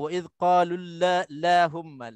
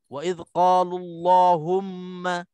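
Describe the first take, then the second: First: The L sound is thin and light. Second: The L sound is thick and heavy. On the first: The speaker calls it wrong. "sebutannya memang tipis" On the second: The speaker calls it right. "Lam itu dibaca dengan taghlidh dengan tebal"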